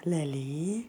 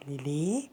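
First: Breathy whisper of the name Lili. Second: Very soft, low call of the name. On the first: Owner whispering her cat's name Lili. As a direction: whisper Lili with a rising end. Softly calling the cat. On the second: Owner softly calling her cat Lili by name. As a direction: call her name gently, barely voiced. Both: Real, not acted.

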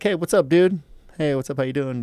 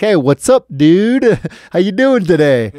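First: Higher-pitched, easygoing hello; casual friendly greeting. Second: Much louder, high-pitched exaggerated hello; loud repeated greeting. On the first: Retold or imitated. Greeting a neighbor in the elevator, casual and friendly. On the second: Repeating hello to a silent neighbor, exaggeratedly loud. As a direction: belt it out so he can't miss it. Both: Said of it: "said that kinda quiet or slurred".

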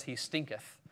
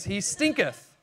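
First: Said in the usual way. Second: "He stinketh" with weight on "stinketh", a little higher and falling; relishing stinketh. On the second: Shown as a demonstration. Preacher relishing the King James word "stinketh". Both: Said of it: "I love the King James, it says".

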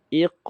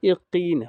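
First: ইক slow and far louder on the bounced k; correct echoed ending. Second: ইকিন slow, with a full i after k; wrong pronunciation. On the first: Teacher models it for students, echoed ইক. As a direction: echo the k of ইক without adding a vowel. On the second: Teacher shows the mistake to avoid, added vowel. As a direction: turn the echo into a long i in ইকিন. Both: Shown as a demonstration. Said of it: "ইকিন হবে না".

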